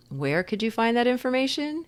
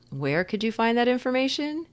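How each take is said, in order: First: It is said lightly and playfully, smiling. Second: It is said lightly and playfully, smiling.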